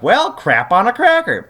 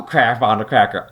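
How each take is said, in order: First: Higher, hammed-up frustrated curse; a cartoonish groan of mild annoyance; lightly voiced exasperated hero; mock exasperated Jace. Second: Lower, gruffer doubling of the curse; lightly voiced, more exasperated hero; deeper mock Jace. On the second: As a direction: drop the voice down for the bigger curse. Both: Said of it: "Jace is like".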